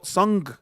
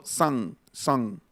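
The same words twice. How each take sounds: First: 'song' with round o and hard final g; wrong, spelled pronunciation. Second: 'song' as sahng, no hard g; natural pronunciation. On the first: Teacher showing what he avoids, 'song' with a hard g. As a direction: sound the g at the end of 'song'. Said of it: "cómo no digo song". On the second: Teacher showing what he says, 'song' with open vowel and silent g. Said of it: "digo song". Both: Shown as a demonstration.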